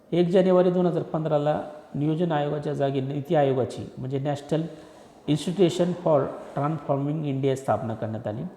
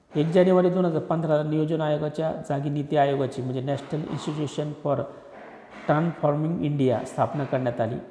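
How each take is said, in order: Both takes have the same delivery.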